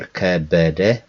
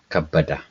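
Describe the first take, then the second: First: The vowels are pronounced as 'e' sounds. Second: The vowels are pronounced as 'a' sounds. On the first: The speaker calls it wrong. "we don't call Kebede" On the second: The speaker calls it right. "but we call Kabada"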